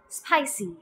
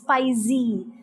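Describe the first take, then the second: First: The middle consonant is a hissing s sound. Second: The middle consonant is a buzzing z sound. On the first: The speaker calls it right. "You would have to pronounce it as spicy" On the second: The speaker calls it wrong. "they tend to use the z sound. Well, that is wrong"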